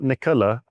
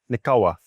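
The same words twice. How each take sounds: First: The L sounds plain and clear. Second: The L sounds thick and muffled. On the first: The speaker calls it wrong. "it's not Nikola" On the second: The speaker calls it right. "it's Nikola ... a lot of L's just sound like you've got hot potato in your mouth"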